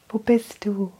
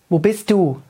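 First: It sounds like a longing call. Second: It sounds like a reproach.

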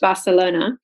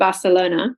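First: It is said with an English pronunciation. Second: It is said with an English pronunciation.

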